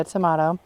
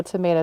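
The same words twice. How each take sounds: First: Tomato said as tuh-MAH-toh; alternative pronunciation. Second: Said in the usual way. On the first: Shown as a demonstration. She answers the name tease, tomato said tuh-MAH-toh. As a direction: say tomato with AH for the middle vowel.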